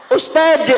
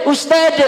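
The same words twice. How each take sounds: The two takes are said the same way.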